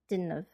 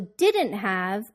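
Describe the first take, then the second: First: Have loses its h and sounds like of. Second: Have is said in full with its h.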